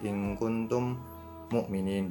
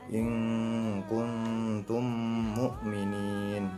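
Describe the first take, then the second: First: The two m sounds are pronounced separately. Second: The two m sounds merge into one doubled m. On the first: The speaker calls it wrong. "Nggak boleh in kuntum mu'minin dipisah" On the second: The speaker calls it right. "ditasydidkan dan wajib dibaca langsung"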